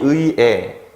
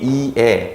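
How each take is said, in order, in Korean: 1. 첫 음절은 ui, 둘째 음절은 e로 발음해요. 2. 첫 음절은 i, 둘째 음절은 e로 발음해요. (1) "에라고 발음해도 돼요" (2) "네 개를 모두 허용한다"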